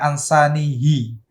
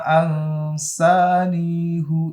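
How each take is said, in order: First: The word ends with an i vowel. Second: The word ends with a u vowel. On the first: The speaker calls it wrong. "salah membaca. Bacanya ansanihi" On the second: The speaker calls it right. "hunya baca dhammah, jangan dibaca kasroh"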